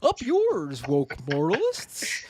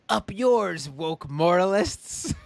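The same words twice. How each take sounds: First: It is said in a Kermit-like Peterson voice. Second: It is said in a plainer, weaker impression.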